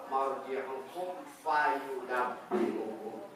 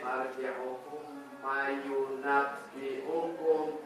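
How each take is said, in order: First: The f sound is clearly pronounced after the m. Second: The f sound merges into an m sound. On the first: The speaker calls it right. "Itu harus ditekankan" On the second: The speaker calls it wrong. "jangan sampai begitu"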